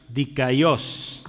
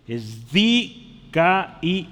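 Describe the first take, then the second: First: Said in the usual way. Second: "dikaios" drawn out very slowly with the stress shown on the final syllable; stressed Greek word. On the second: Shown as a demonstration. Preacher shows the congregation where the Greek stress falls, slow and deliberate. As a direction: stretch out "dikaios" slowly and lean on its last syllable. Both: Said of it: "el acento hay aquí en la O".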